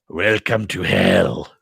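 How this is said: It is said in the Emperor's sinister voice.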